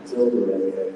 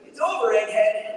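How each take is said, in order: First: The voice is much deeper and more grounded. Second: The voice is higher, the usual Sonic pitch.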